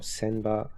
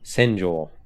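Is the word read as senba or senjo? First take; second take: senba; senjo. First: The word is read as senba. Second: The word is read as senjo. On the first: The speaker calls it wrong. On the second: The speaker calls it right.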